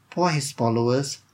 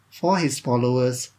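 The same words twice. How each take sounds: The two takes are said the same way.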